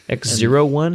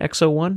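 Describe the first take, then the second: First: The middle character is said as zero. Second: The middle character is said as oh. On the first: This is the official name. "rather than" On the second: This is the shorter everyday name. "It just kind of sounds better saying X oh one"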